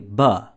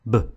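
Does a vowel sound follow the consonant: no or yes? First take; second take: yes; no. First: A short uh vowel follows the b sound. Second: The b sound is clipped with no vowel. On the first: The speaker calls it wrong. "would have been pronounced as such" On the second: The speaker calls it right. "We teach the consonant B like this"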